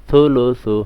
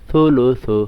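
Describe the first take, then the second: The two takes are said the same way.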